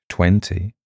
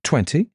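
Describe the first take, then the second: First: Said in the usual way. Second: Higher, questioning lift; wondering. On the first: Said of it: "said Reese, taking a deep breath". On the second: A narrator's reading. Kelly tells Reese her age, wonderingly. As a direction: answer in puzzled wonder, pitched up. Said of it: "she said wonderingly".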